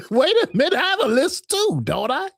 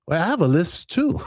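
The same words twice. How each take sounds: First: Higher, laughing through the words. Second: Said in the usual way. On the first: Real, not acted. Host asks chat about her lisp, laughing. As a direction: giggle while checking your own lisp. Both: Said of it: "Y'all can't hear the lisp?".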